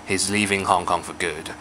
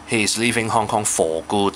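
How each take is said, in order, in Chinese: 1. 'for' 读得轻，是弱读形式。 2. 'for' 是完整读出的。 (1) "我冇理由去強調呢個字嘅，咁我就會讀成好hea 嘅" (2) "我就唔會，he's leaving Hong Kong for good 咁樣，唔會唔會"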